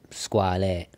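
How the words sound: The name is pronounced the Italian way. It shows respect for the Italian workers who make it. The speaker calls it wrong. "lo pronuncio alla maniera italiana"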